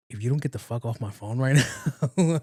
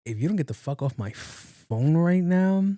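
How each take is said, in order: First: Said in the usual way. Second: Higher, with "phone" stretched out long; emphatic warning. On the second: Retold or imitated. To the friend who called him at work, emphatic exasperation, "phone" dragged out. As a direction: lean hard on "phone" and draw it out. Retold reply, repeated with emphasis.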